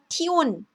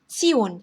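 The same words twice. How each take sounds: First: The consonant is a plain t sound. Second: The consonant is a ts sound. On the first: The speaker calls it wrong. "t 발음 살려서 tion, tion 이렇게 읽는 게 아니라" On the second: The speaker calls it right. "tion 이렇게 읽습니다. ... 요게 츠, 츠 이런 소리예요"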